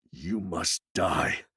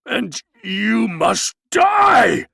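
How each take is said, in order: First: Lower, much softer, slow menacing voice; quiet threat. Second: Much higher, louder, slow menacing shout; awful voice. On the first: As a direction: say it under the breath like a cold promise. Maskell repeats the threat. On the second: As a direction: pronounce the sentence like a terrible verdict. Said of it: "said Maskell in an awful voice". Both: A narrator's reading.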